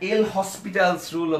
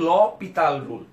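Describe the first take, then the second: First: It starts with 'el' and has 'hospital'. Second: It starts with 'lo' and has no 's'. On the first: The speaker calls it wrong. "অনেকে এল হসপিটালস rule অথবা লা হসপিটালস rule বলে থাকে, আসলে কিন্তু সেটা সঠিক উচ্চারণ না" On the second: The speaker calls it right. "এর উচ্চারণ হচ্ছে ল পিতাল রুল"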